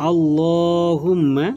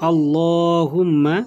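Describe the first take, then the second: No difference in how they are said.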